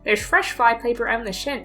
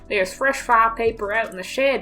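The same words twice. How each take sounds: First: It is read in the speaker's ordinary accent. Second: It is read in a put-on southern accent. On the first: The speaker calls it wrong. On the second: The speaker calls it right.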